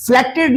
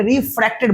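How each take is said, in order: First: फ्लेक्टेड said with an L after the F; फ्लेक्टेड with a clear L where an R belongs; wrong L sound. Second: रिफ्रैक्टेड said with an R after the F; रिफ्रैक्टेड with R, no L, in the middle; clear R sound. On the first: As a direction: stress the "fl" in फ्लेक्टेड, as the form to avoid. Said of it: "नहीं बोलेंगे". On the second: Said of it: "आर है". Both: Shown as a demonstration.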